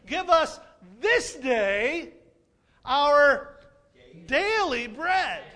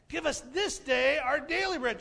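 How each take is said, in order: First: Each word pulled apart, slow and loud; "Give us this day our daily bread" spaced out word by word, loud and slow; slow emphatic prayer. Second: Said in the usual way. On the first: Shown as a demonstration. Pastor drawing out the prayer for the congregation, slow and emphatic.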